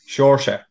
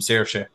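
First: The name begins with a sound like 'shore'. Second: The name does not begin like 'shore'. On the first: The speaker calls it right. "I just think of the shore" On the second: The speaker calls it wrong. "he won't fall out with you if you call him Saoirse"

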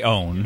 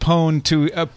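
First: The word begins with a vowel sound. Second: The word begins with a P sound. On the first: "you could just Say own" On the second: "I like to pronounce it pwn to make it clear in audio that I'm using the P"

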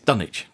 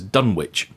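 First: The name has the local English pronunciation. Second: The name has an American-style pronunciation. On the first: This is how the name of the real place is said. The speaker calls it right. "The real Dunwich has a very different pronunciation" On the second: This is how the name is said in films and media. The speaker calls it wrong. "That's how it's pronounced in the 1970s film"

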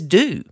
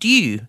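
First: The word is said like 'do', with no glide. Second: The word is said with a 'y' glide, like 'dyoo'. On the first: The trainees' way of saying the word. "no, that's D-O" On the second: The speaker's own way of saying the word. "amount due, D-U-E"

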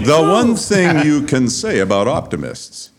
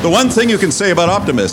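First: The sentence is read slowly. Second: The sentence is read quickly. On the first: The speaker calls it right. "we got the sexy Sheldon voice" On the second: The speaker calls it wrong. "Did I read that too fast?"

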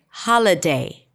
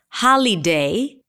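First: The middle syllable is reduced to a schwa. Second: The middle syllable has a full vowel. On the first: The speaker calls it right. "But if we reduce it, does it sound okay?" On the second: The speaker calls it wrong. "And do we say li? We could"

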